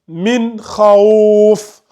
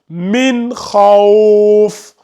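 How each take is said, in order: First: The last word ends on a bare consonant. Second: The same.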